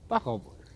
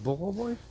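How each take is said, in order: First: The first vowel is pronounced as a. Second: The first vowel is pronounced as o. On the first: The speaker calls it right. "Denn in Russland wird das erste O immer als A gesprochen" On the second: The speaker calls it wrong. "Heißt das nicht Borovoi?"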